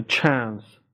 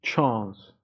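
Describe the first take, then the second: First: American "chance" with a front A, as in cat; flat-A American vowel in "chance"; American pronunciation. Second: British "Chance" with an open AH, chahnce; broad-A British vowel in "Chance"; British pronunciation. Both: Shown as a demonstration.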